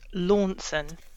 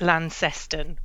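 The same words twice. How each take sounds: First: It uses the broadcast-style pronunciation of the name. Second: It is pronounced just as the name is spelled. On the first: This is how national broadcasters say it. "the BBC refer to it as Launceston" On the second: This is how outsiders guess it. "which is how it looks on the page"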